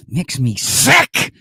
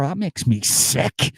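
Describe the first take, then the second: First: Very slow, loud revulsion punching SICK; emphatic mock disgust. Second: Drawn-out, higher-pitched revulsion; mock disgust. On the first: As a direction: spit out SICK loudly after dragging the words. Repeats disgust more forcefully. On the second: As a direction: slowly savour the disgust. Mock disgust at Irish nationalist.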